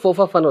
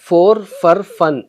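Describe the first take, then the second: First: The words are said quickly with reduced vowels. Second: The words are said slowly with full vowels.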